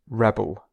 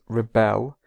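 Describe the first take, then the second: First: The stress is on the first syllable. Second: The stress is on the second syllable. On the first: It is used as a noun. "the noun is rebel" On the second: It is used as a verb. "the verb is rebel"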